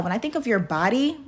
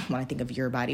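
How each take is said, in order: First: Said in the usual way. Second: Giggling through the words, fast and much softer; can't keep a straight face on the retake; laughing. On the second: Real, not acted. Vlogger restarting her line, laughing and softer.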